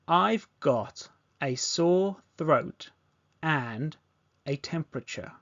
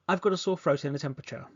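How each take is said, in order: First: The sentence is spoken slowly. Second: The sentence is spoken very fast. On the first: "Repeat this back slowly" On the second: "Now let's do this really fast"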